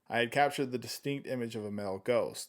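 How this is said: It is read in a natural speaking voice.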